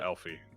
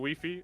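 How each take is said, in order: First: It begins with an 'elf' sound. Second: It begins with a 'leaf' sound. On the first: The speaker calls it right. "I'll say it right once" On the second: The speaker calls it wrong. "that is not how it's pronounced"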